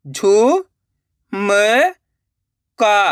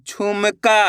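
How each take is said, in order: First: झु, म, का with long gaps; syllable by syllable. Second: Said in the usual way. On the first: Shown as a demonstration. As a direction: sound out झु, म, का one by one. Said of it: "एक एक अक्षर का उच्चारण करके". (झु, म, का एक-एक अक्षर रुक-रुक कर) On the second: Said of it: "direct मात्रा का उच्चारण करके पढ़ेंगे".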